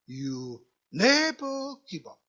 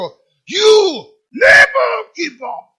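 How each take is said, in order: First: It is said in a quiet, small voice. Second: It is shouted in a very booming voice.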